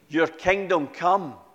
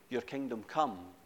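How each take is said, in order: First: It is said with deliberate, heartfelt feeling. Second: It is said flatly, by rote, without feeling. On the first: The words are prayed from the heart. The speaker calls it right. "and hear the difference" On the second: The words are recited without thought. The speaker calls it wrong. "without any regard for the intention of these words"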